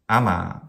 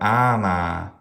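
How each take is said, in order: First: The first syllable is short, the second long. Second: Both syllables are held long. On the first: The speaker calls it right. "short, long" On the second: The speaker calls it wrong. "maybe something like a spandi"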